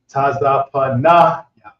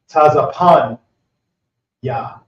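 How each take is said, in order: First: The vowel before ya is pronounced. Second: The vowel before ya is dropped. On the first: The speaker calls it wrong. "instead of saying" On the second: The speaker calls it right. "the a pronounced gets dropped off"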